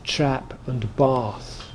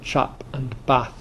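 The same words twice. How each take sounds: First: It is said in a Southern English accent. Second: It is said in a Northern English accent.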